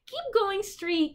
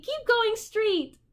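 First: High, slow sing-song counsel; a high, slow tempter voice; coaxing voice. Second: Even higher, slower sing-song; a teasing high echo of the advice; higher coaxing echo. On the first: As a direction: lure them on slowly. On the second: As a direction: draw the words out, luring. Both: A narrator's reading. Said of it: "counseled the voice".

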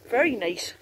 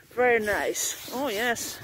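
First: Said in the usual way. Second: "Very nice" slow and drawn out, savouring it; drawn-out appreciation. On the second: Real, not acted. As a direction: stretch out "Very nice" like you're savouring it. Admiring tent, repeated slowly.

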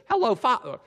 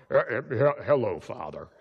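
First: Much higher, louder youthful greeting; Jacob's own voice. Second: Fake Esau voice. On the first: Acted. Jacob greets his father in his natural voice, high and bright. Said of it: "instead of talking in your Jacob voice". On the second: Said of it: "talk in an Esau voice".

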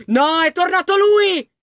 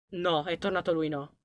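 First: High, loud and slow, stretching "lui"; full alarm on "No, è tornato lui!"; panicked shout. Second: Much softer and lower, held back; a hushed "No, è tornato lui"; frightened hush. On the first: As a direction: cry out that he is back. Monster returns, panics. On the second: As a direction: breathe it so the monster won't hear. Monster returns, hiding. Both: Real, not acted.

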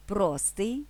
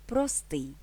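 First: ПРОстий, stress at the start, rising end; stress on first syllable. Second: ПроСТИЙ, stress at the end, falling tune; stress on last syllable. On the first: (наголос на перший склад: ПРОстий) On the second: (наголос на останній склад: проСТИЙ) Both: Shown as a demonstration. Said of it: "подвійним наголосом".

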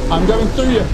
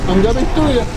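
The two takes are said the same way.

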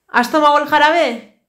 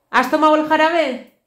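No difference in how they are said.

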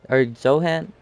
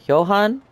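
First: "Johan" said as JOH-han with an English J, like "joe"; Johan with j sound. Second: "Johan" said as yo-HAHN, with a rising question; Johan with y sound. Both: Shown as a demonstration. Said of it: "how do you pronounce that".

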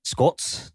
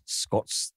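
First: Muttered under the breath; soft self-correction. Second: Whispered, barely there; whispered correction. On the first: Correcting himself to the co-hosts, a soft mutter. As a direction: fix the word to yourself. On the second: Repeating the correction to himself, whispered. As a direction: breathe the word to yourself. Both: Real, not acted.

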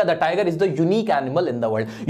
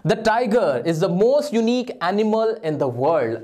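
First: Slow, clear reading of the fixed sentence; corrected sentence read out. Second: Very slow, word by word reading of the faulty sentence; wrong sentence read slowly. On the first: Teacher reads out the corrected sentence for students. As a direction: state the corrected version deliberately. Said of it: "ये बनेगा". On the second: Teacher slowly reads the faulty exam sentence to students. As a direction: spell out the wrong version slowly. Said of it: "अब इसमें क्या problem है?". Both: Shown as a demonstration.

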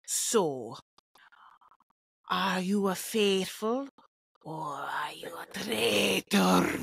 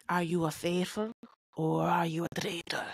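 First: Slow, low Scottish accent with overdone rolled R, dropping to a whisper on "traitor"; Alan impression. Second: Low Scottish accent, less R, whispered "traitor"; a better Scottish show-host accent, easing off the R in "traitor"; Alan impression. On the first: Podcaster attempting the host's Scottish accent, too much R in "traitor". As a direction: overdo the R in "traitor", almost Spanish. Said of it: "A little too much R". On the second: Podcaster retrying the host's Scottish accent, lighter R in "traitor". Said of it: "That's better". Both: Shown as a demonstration.

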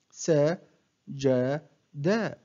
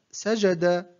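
First: One short syllable at a time, with pauses; broken into syllables. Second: Said in the usual way. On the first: Shown as a demonstration. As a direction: separate each syllable for a learner to copy. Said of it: "أقطع الكلمة إلى مقاطع قصيرة". (تقطيع الكلمة مقطعًا مقطعًا بوقفات) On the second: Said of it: "أقطع الكلمة".

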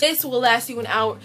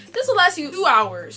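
First: Said in the usual way. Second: "two hours" said louder and higher; emphatic upgrade on "two"; stress on two hours. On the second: Shown as a demonstration. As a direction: punch "two" to top the last line.

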